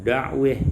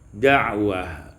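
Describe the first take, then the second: First: The vowel before the final h leans toward e. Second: The vowel before the final h is open a.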